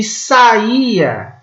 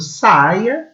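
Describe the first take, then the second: First: Saía as sa-Í-a, the I long and strong; slow sa-Í-a, stressed on the middle I; verb stress. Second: Saia as SAI-a, stress on the first syllable; drawn-out SAI-a with a gliding I; noun stress. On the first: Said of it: "que é o verbo sair". (saía, verbo: sa-Í-a, com I forte) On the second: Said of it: "que é o substantivo saia". (saia, substantivo: SAI-a, duas sílabas) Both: Shown as a demonstration.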